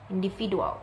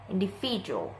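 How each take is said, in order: First: The middle has a D sound. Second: The middle has a J sound. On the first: The speaker calls it wrong. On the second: The speaker calls it right.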